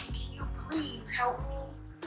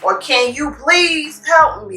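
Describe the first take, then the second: First: It is said in a friendly, polite tone. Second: It is said in an aggressive, demanding tone. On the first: A sincere, easygoing request for help. The speaker calls it right. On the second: An irritated demand that invites defensiveness. The speaker calls it wrong.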